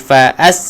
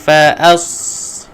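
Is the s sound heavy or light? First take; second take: light; heavy. First: The s sound is light and thin. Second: The s sound is heavy and thick. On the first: The speaker calls it wrong. "jangan fa as, tak boleh" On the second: The speaker calls it right. "Tuan-puan kena tebalkan"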